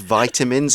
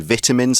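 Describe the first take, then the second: First: It is said with an American pronunciation. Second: It is said with a British pronunciation. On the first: "the American pronunciation is probably more scientifically correct" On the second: "That is how we pronounce it in the U K"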